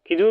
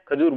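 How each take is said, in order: First: The first syllable has an 'i' vowel. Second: The first syllable has an 'a' vowel. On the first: The speaker calls it wrong. "खिजूर बोलते हैं ना, गलत है वो" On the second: The speaker calls it right. "खजूर बोलना है"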